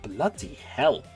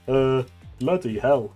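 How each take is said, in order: First: It is said in a plain, ordinary voice. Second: It is said in a put-on Crabbe voice.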